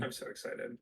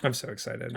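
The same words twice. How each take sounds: First: Whispered excitement. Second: Said in the usual way. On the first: Shown as a demonstration. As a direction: breathe it out in a whisper. Repeats the line, then whispers it.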